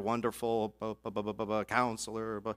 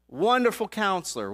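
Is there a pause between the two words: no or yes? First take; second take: yes; no. First: There is a pause between the two words. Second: The two words run together without a pause. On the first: It sounds like two separate names. The speaker calls it wrong. "they put a pause there" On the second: It is a single name. The speaker calls it right. "it's actually one name"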